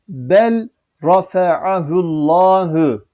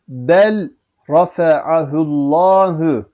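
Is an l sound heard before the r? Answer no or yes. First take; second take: yes; yes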